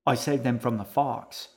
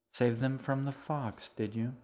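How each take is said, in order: First: Sudden, understated sullen protest; mildly sullen. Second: Mildly sceptical echo. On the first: Boy defending himself to the man he owes, mildly sullen. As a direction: blurt it out with a touch of sulk. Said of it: "Edgar said suddenly, sullenly". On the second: Man questions the boy's fox story, mildly sceptical. Juniper echoes the boy's claim. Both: A narrator's reading.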